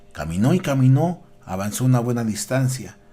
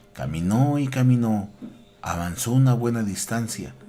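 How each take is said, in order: The two takes are said the same way.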